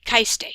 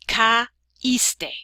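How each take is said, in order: First: "caíste" run together as KAIS-te, ai as one gliding syllable; unaccented, run together. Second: "caíste" slowly split as ca... íste, stress on the í; ca-íste, split syllables. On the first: Teacher shows learners the form without the accent mark, "caíste" squashed into KAIS-te. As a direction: merge ca and i in "caíste" to rhyme with "ice", then te. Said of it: "If we didn't have this accent mark".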